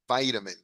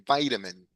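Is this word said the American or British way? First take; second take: American; American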